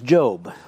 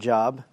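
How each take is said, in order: First: The vowel is a long 'oh' sound. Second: The vowel is a short 'ah' sound. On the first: The speaker calls it right. "It is Job" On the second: The speaker calls it wrong. "not Job"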